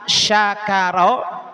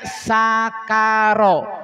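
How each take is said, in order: First: The word begins with a sh sound. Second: The word begins with an s sound. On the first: To be grateful. The speaker calls it right. "yang harusnya pakai shin besar" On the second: To be drunk. The speaker calls it wrong. "dibaca dengan sin"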